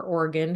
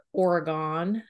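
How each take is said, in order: First: Oregon, last vowel weak, like "Or-uh-gun"; Oregon ending in "gun". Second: Oregon, last vowel fully open as in "gone"; Oregon ending in "gone". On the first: Host offers the other way to say it, Oregon ending in "gun". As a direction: say Oregon with a reduced final "gun". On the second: Host unsure how to say the state, Oregon ending in "gone". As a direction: say Oregon with an open final "gahn". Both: Shown as a demonstration. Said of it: "however you say it".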